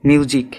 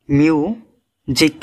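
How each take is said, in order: First: Said in the usual way. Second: music slowly in two parts, মিউ and জিক; very slow two-syllable demonstration of music; split in two. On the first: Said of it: "দুইবারে উচ্চারণ করতে হয়". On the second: Shown as a demonstration. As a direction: break music after মিউ with a clear pause. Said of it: "দুইবারে উচ্চারণ করতে হয় শব্দটা".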